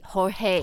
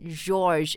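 First: The name begins with a breathy H sound. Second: The name begins with an English J sound. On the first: The speaker calls it right. "it's Jorge" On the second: The speaker calls it wrong. "It's not George"

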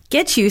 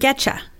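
First: The t and 'you' are kept separate. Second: The t and 'you' blend into 'cha'.

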